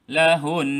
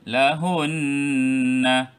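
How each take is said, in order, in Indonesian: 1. Kata ini berakhir pada sengau yang ditahan selama dua ketukan. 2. Kata ini berakhir pada vokal yang dibunyikan di akhir. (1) "kita kekalkan dengungnya dua harakat. Kita akan berhenti" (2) "kalau kita baca"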